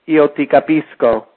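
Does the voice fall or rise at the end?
falls. The voice falls at the end, a statement.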